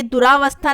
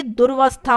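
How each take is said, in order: First: दुरावस्था with extra long raa; wrong form. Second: दुर्वस्था as dur-vasthaa; no vowel between r and v in दुर्वस्था; correct form. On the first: Teacher showing the extra vowel, du-raa-vasthaa in दुरावस्था. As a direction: open an aa after the r in दुरावस्था. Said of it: "ये दुरावस्था नहीं होता". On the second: Teacher correcting students, दुर्वस्था with r straight into v. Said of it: "ये दुर्वस्था होता है". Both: Shown as a demonstration.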